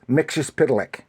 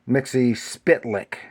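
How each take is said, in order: First: The name sounds like Mixus Pitalik. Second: The name sounds like Mixie Spitlick. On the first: The speaker calls it right. "but it's Mixus Pitalik" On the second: The speaker calls it wrong. "Mixie himself pronounced it uh, Mixie Spitlick, but that's not really right"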